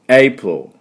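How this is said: It is said as two syllables, English-style. The speaker calls it right. "実際の発音はエイプロっていう発音です"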